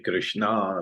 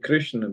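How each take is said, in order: First: The final vowel is long. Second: The final vowel is short. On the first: The speaker calls it wrong. "long A" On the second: The speaker calls it right. "the half syllable is not counted"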